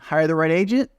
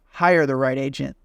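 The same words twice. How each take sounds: First: The voice rises at the end. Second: The voice falls at the end.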